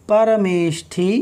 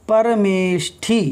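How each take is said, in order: Both takes have the same delivery.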